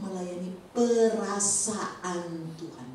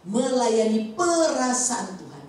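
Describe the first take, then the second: First: "melayani perasaan Tuhan" drawn out slowly, each word spaced; slow emphasis. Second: "Melayani perasaan Tuhan" slow and louder, "perasaan" hit hard; loud emphasis. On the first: Preacher spelling out the key phrase to the congregation, slow and deliberate. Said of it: "Melayani Tuhan". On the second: Preacher driving home the key phrase to the congregation, loud and slow. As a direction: proclaim "perasaan" with force. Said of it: "Itu bagus sekali pujian tadi". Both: Shown as a demonstration.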